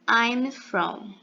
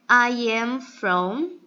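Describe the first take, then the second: First: I am is contracted into one syllable. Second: I am is said as two full words. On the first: "na sua forma contraída"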